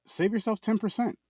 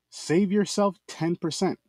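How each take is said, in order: First: High ad voice. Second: Slow, stretched sales line; slow ad repeat. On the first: Ad read, high. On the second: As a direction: draw the offer out slowly. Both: Acted.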